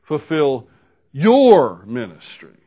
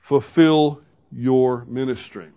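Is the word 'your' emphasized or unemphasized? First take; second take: emphasized; unemphasized. First: The word 'your' is emphasized. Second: The word 'your' is not emphasized.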